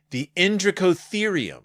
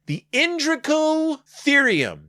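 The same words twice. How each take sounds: First: Said in the usual way. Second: Much higher, slow grand announcement of the Indricotherium; grand announcer. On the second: Shown as a demonstration. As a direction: boom out Indricotherium like a big reveal. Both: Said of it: "a very big name".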